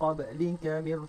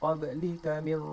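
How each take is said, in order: Both takes have the same delivery.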